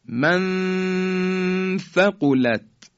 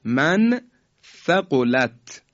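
First: «من ثقلت» joined by a long high nasal hum; very slow «من ثقلت», level drawn-out ghunna; ikhfa. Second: «من ثقلت» in two parts with a clear short n; separated reading. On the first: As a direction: hold the hidden noon of «من» before «ثقلت». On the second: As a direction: say «من», pause, then «ثقلت». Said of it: "مثال بعدی". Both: Shown as a demonstration.

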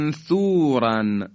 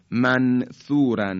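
First: Slow «منثوراً» with a long hummed, hidden noon; «منثوراً» with drawn-out ghunna before the th; ikhfa. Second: Slow «منثوراً» with a clearly separated n; «منثوراً» split after a plain, un-hidden n; incorrect izhar. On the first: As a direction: stretch the n of «منثوراً» and glide into the ث. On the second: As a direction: pronounce the noon of «منثوراً» fully, without humming it. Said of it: "این صحیح نیست". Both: Shown as a demonstration.

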